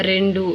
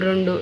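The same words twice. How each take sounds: First: Said in the usual way. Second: రెండు as "rondu"; changed vowel. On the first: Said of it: "అచ్చులను మార్చడం ఏ విధంగా". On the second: Shown as a demonstration. Teacher showing a vowel change, రెండు with o for e. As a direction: round the first vowel of రెండు to o. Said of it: "ఈ విధంగా ఉంటే".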